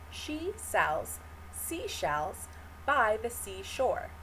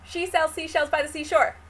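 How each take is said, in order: First: It is said slowly and very clearly. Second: It is said quickly and in a rush. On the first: "First, start it really clearly" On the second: "Try saying that faster and faster every time"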